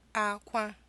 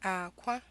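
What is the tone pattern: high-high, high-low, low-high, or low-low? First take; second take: high-high; low-high. First: Both syllables have a high tone. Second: A low tone is followed by a high tone. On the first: It means cry. "two high tones" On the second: It means egg. "a low tone and a high tone"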